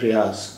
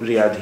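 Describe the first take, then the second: First: The word ends with a z sound. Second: The word ends with a d sound. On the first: This is the Urdu pronunciation. "इसलिए यहाँ भी ज़ा जैसा उच्चारण है" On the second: This is the Arabic pronunciation. "अरबी के हिसाब से सही उच्चारण तो रियाद ही है"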